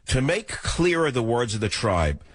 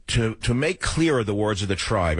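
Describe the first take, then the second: First: "clearer" weighed, the whole line intoned; grave, quoting a poet; solemn quote. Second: Said in the usual way. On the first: Shown as a demonstration. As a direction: recite To make clearer the words of the tribe like a maxim. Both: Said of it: "I will quote it".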